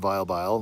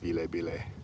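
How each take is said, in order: First: The name is said the usual way. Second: The name is said the Kenyan way. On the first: "I know it's the Vile Bile" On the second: "here it's Ville Bile"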